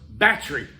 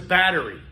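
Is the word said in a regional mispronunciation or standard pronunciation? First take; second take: regional; standard. First: It is said with a regional mispronunciation. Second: It is said with the standard pronunciation. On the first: The speaker calls it wrong. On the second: The speaker calls it right.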